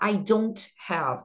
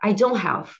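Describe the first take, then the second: First: The t in don't is clearly pronounced. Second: The t in don't is dropped. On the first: The speaker calls it wrong. "eu não vou falar" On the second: The speaker calls it right. "vai ficar ... fica melhor até se vocês não falarem o T"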